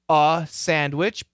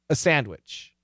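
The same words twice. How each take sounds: First: The word 'a' has a full short U vowel. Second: The word 'a' has a reduced schwa vowel. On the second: "but typically"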